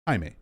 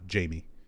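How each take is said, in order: First: The name has a Spanish-style pronunciation. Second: The name has an English-style pronunciation. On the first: The speaker calls it right. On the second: The speaker calls it wrong. "not Jamie"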